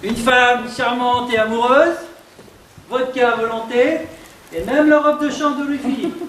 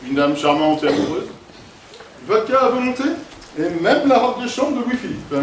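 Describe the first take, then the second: First: Playful rising delivery. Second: Classy gentleman. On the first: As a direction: toy with the lines, climbing up. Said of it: "Amuse-toi avec le personnage". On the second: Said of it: "je vais te montrer". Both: Shown as a demonstration.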